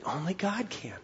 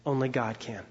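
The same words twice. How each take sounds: First: Hushed whisper, letting it sink in. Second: Said in the usual way. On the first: Shown as a demonstration. Preacher whispers the point to the congregation, hushed. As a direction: breathe the words out, no voice.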